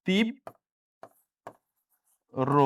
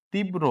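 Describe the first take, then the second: First: তীব্র split with a long pause before the last syllable; syllable-by-syllable demo. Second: Said in the usual way. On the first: Shown as a demonstration. Teacher showing students the correct pronunciation, slow split syllables. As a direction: say তীব, long pause, রো, very slowly. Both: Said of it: "শুদ্ধ উচ্চারণ".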